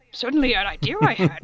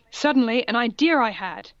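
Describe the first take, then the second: First: Faster, put-on wise voice; Yoda-like redo. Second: Said in the usual way. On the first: Shown as a demonstration. Reader repeating the odd line as a wise little master. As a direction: redo the line as a quirky sage. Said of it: "repeats the line in a new voice".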